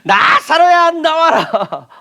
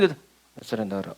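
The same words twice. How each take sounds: First: The phrase is shouted in a loud voice. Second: The phrase is said in a quiet, ordinary voice. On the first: "라고 주님이 외치셨다" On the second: "이렇게 하지 않으시고"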